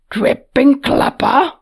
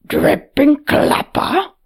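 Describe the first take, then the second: First: Slow, louder gruff exclamation. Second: Slow, louder gruff exclamation; a gruff brute blurting in shock. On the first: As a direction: blurt it again, gruff and stunned. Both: Acted. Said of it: "Patat's gruff voice exclaimed".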